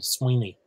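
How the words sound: The word ends with an ee vowel sound. "in Ulster, it's an E sound"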